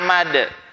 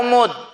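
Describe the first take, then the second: First: Both vowels in the word are a sounds. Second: Both vowels in the word are u sounds. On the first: "boleh difatahkan semuanya" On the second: "ain dan mim didomahkan"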